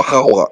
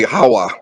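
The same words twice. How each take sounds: First: "Hawa" with a raspy throat-scraped "kh" at the start; throaty first consonant. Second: Said in the usual way. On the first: Shown as a demonstration. Speaker showing listeners the Ewe word for Eve, guttural "Hawa". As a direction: open "Hawa" on a guttural kh sound. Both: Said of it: "with the Hawa".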